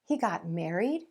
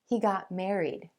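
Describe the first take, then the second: First: The pitch rises at the end. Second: The pitch falls at the end. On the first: It is a question. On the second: It is a statement of fact.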